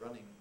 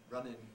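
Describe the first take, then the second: First: The ending is pronounced with an ng sound. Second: The ending is pronounced with a plain n sound. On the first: "instead of" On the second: "involves an in rather than an ing"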